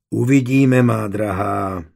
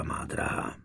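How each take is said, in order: First: Slow, gentle, falling on "má drahá"; motherly reassurance. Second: Soft, breathy whisper of the endearment; whispered aside. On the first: Anna calmly comforting the pregnant Brunhilda. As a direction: soothe her like a mother would. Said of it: "a mateřsky ji pohladila po tváři". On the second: Husband whispering softly to his dear wife. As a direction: murmur it close, almost unvoiced. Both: A narrator's reading.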